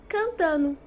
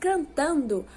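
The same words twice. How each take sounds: First: The word ends with a reduced NO sound. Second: The word ends with an NDO sound. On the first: "pronunciamos cantando" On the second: "ao invés de pronunciarmos cantando"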